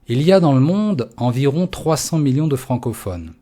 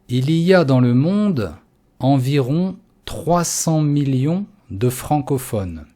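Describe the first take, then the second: First: The sentence is read at normal pace. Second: The sentence is read at a slow pace.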